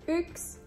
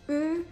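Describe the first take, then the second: First: The word is said with its ending dropped. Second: Only the first sound of the word is said. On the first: This is the everyday spoken form. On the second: This is fast everyday speech. "Nopea puhekieli"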